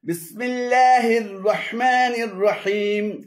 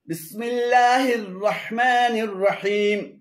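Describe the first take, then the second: Both takes have the same delivery.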